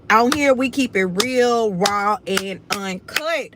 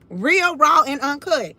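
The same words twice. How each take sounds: First: Said in the usual way. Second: Emphatic catchphrase. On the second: Real, not acted.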